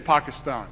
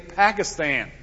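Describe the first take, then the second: First: It is said with the native-like pronunciation. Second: It is said with the common American pronunciation. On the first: The speaker calls it right. "There's a reason it's Pakistan" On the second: The speaker calls it wrong. "most Americans say Pakistan"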